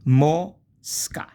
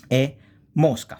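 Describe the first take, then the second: First: Mosca louder and higher, rising; teacher repeating the word; repeat with rise. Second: Mosca said louder; teacher giving the example; modelled word. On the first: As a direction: say Mosca again with a lift. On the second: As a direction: present mosca clearly. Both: Shown as a demonstration.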